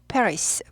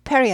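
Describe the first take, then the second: First: The word ends with an s sound. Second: The word ends without an s sound. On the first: The speaker calls it right. "영어에는 스가 붙어요" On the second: The speaker calls it wrong. "Paris 하지 않고"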